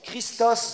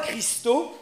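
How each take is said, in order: First: The final s sound is clearly pronounced. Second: The final s sound is left silent. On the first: The speaker calls it right. "mais on prononce Christos" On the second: The speaker calls it wrong. "pas Christo"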